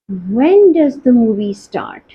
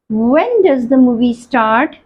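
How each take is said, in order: First: Slow, "When" stressed, falling tune at the end; the right answer. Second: Slow, rising tune with "When" held light; quiz option read. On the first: Teacher confirming the correct quiz answer to students, stressed and falling. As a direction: settle on "When does the movie start?", leaning on "When" and dropping the end. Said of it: "movie कब start हो रही है?". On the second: Teacher reading a quiz option aloud to students, slow and rising. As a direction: read "When does the movie start?" as one choice among several, lifting at the end. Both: Shown as a demonstration.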